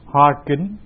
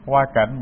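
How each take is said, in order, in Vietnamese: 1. Từ thứ hai được đọc là kính. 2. Từ thứ hai được đọc là cảnh.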